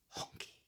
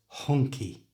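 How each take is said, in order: First: The whole word is whispered without voice. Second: It starts whispered, then the voice comes in. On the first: "just to whisper the word, like this" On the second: "bring your voice in, but start with a whisper"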